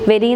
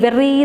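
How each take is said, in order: First: The r is a single quick tap. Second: The r is a rolled trill. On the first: The speaker calls it right. "It touches only one time" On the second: The speaker calls it wrong. "വെറി എന്ന് പറയില്ലല്ലോ, റ് പറയില്ലല്ലോ"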